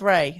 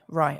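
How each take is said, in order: First: The vowel sounds like the word day. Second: The vowel sounds like the word eye. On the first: The speaker calls it wrong. "I would have gone with Ray" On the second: The speaker calls it right. "It's pronounced like R rye"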